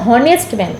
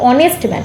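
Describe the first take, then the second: First: Honest begins with a pronounced h sound. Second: Honest begins with a vowel, h silent. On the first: The speaker calls it wrong. "আমরা কখনো বলি না যে হনেস্ট man" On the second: The speaker calls it right. "আমরা বলি অনেস্ট man"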